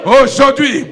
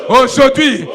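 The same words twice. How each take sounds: The two takes are said the same way.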